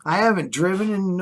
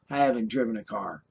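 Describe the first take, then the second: First: Said in the usual way. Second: I haven't driven a car, lower and softer, HAVEN'T leaned on; sinking into a quiet, firm insistence; quiet emphatic restatement. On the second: Real, not acted. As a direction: drop down and hit haven't. Repeats claim, then says it quietly.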